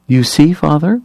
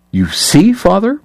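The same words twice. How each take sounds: First: High, sanctimonious church lady; preachy and shrill-voiced pious matron; prim scold. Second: High mocking imitation of a prig; triumphant mimicry. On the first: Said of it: "Margaret Hoover asked". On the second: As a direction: parrot her back, gleefully shrill. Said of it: "Kate mimicked triumphantly".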